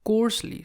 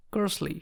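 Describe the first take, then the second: First: "coarsely" with a full long O, "KORSE-lee"; full O sound. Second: "coarsely" with the O dropped, a short neutral vowel; O sound left out. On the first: Teacher reading the word once the vowel is added, full O. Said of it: "So now it becomes coarsely". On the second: Teacher sounding out a word before its vowel is added, O left out. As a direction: say "coarsely" as "kursly", without its O. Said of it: "we'll be just leaving the". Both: Shown as a demonstration.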